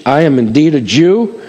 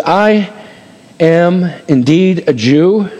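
First: Said in the usual way. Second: Slow declaration. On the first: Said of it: "This is speech". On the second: Acted. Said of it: "Watch what he says".

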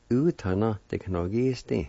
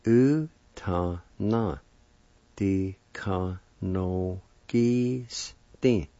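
First: Said in the usual way. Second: "u ta na di ka no gi sti" very slow, each syllable apart. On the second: Shown as a demonstration. Teacher puts piano word together slowly, syllable by syllable. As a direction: draw out "u ta na di ka no gi sti" piece by piece. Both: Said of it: "And together".

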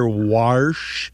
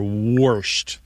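First: "warsh" with an open AR; dialect warsh. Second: "warshed" with a rounded OR, like "worshed"; dialect worshed. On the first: Host shows variants people say, open AR. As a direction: say "warsh" with AH before the R. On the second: Host shows variants people say, OR vowel. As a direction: say "warshed" with OR before the SH. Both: Shown as a demonstration. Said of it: "And you do hear".

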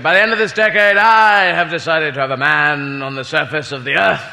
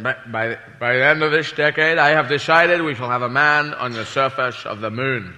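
First: Mock prime-ministerial speech; Harold Macmillan. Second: Low, slurred presidential impression; put-on statesman, s's slipping to sh; President Kennedy. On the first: Prime minister announces a modest space goal, mock grand oratory. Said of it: "he made a speech where he said". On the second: President announces the moon mission, low slurred mock oratory. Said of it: "President Kennedy said".

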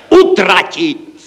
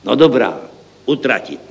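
First: High, loud, drawn-out cry; exclaimed shout. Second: Said in the usual way. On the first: A narrator's reading. Clerk proposes spending it all, shouting it out. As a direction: shout the idea out, stretching it. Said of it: "zvolal jsem já". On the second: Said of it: "vzpamatoval se ředitel".

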